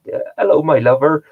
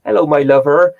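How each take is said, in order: First: "hello" lifted high and sing-song, "my lover" a touch louder; his own catchphrase use. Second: Imitating the wife. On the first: Retold or imitated. Greeting people with his favourite line, playfully higher. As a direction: toss off the pet phrase playfully. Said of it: "phrases that I just say". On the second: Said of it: "she's like".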